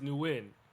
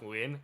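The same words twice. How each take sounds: First: The name sounds like the English word new. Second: The name does not sound like new. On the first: The speaker calls it wrong. "calling me New like like like saying" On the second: The speaker calls it right. "no, it's pronounced"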